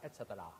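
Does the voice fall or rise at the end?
fall. The pitch falls at the end. The speaker calls it wrong.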